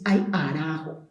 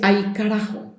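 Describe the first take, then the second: First: The k sound in carajo is dropped. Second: The k sound in carajo is pronounced. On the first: "no se pronuncia la C" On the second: "La gente no dice ay carajo"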